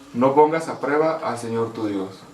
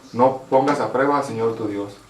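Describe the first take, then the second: The two takes are said the same way.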